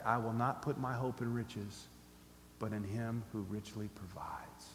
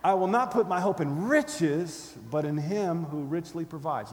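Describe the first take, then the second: First: Soft, low private recitation; hushed, slowing self-reminder; repeating to oneself. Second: Loud, slow punch on "riches", easing off after; defiant declaration settling into assurance; with attitude. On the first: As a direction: say it quietly to yourself, fading near a whisper. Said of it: "repeat this verse to yourself". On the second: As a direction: hit "riches" hard with scorn. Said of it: "try it again with the attitude". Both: Shown as a demonstration.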